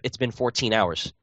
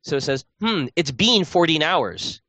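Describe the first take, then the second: First: It is said in a plain everyday accent. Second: It is said in an odd put-on accent. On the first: This is how it would normally be said. The speaker calls it right. "instead of" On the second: This is how the character says it. The speaker calls it wrong. "So he says"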